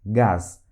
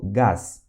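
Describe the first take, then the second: First: Gás said again, lower and clear; repeated Russian gas. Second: Gás with hard g, pitched lower; Russian gas. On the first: Teacher repeats Gás for students to copy. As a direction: echo Gás for learners. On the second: Teacher models gás for Portuguese learners. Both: Shown as a demonstration. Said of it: "Por exemplo".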